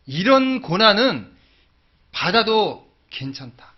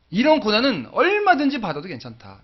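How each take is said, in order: First: Very slow, louder and higher, each word weighed; slow resolve. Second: 얼마든지 hit hard, louder and higher, falling after; 얼마든지 punched as a bold declaration; stress on 얼마든지. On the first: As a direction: lay it down slowly like a vow. Declaring his resolve. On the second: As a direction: lean on 얼마든지 with full conviction. Repeats resolve with emphasis. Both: Acted.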